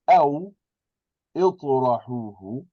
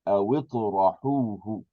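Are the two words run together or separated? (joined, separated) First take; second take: separated; joined. First: The two words are separated with a break. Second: The two words are joined without a break. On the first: "because we're breaking it" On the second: "if you connect them, then you have to drop the hamzatul wasli"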